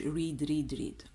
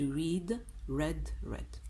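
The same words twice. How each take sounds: First: All three words are pronounced exactly alike. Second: The last two words sound different from the first. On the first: The speaker calls it wrong. "ما نقولوش read read read" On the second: The speaker calls it right. "to read read read voilà"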